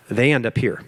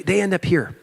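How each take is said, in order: First: Plain. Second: Higher, lifted to mark the upper level; raised pitch. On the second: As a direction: lift the voice to show they rise. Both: Shown as a demonstration.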